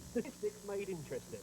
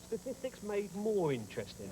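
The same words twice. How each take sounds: First: Said in the usual way. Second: Statistics Made MORE Interesting with MORE lifted and leaned on; stress on MORE. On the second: Shown as a demonstration. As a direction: punch the word more as the joke.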